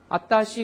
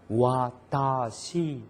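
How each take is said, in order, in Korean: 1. 바로 a 소리로 시작하고, w는 없어요. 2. w 소리로 시작하고 입을 크게 벌려요. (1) "아라고 하는 입 모양에서 아따시가 돼버려요" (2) "다 벌어져야 되거든요"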